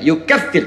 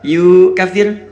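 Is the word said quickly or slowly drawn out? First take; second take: quickly; slowly. First: The word is said quickly, without drawing out. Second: The word is said slowly, drawn out. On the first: The speaker calls it right. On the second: The speaker calls it wrong. "salah ini ya"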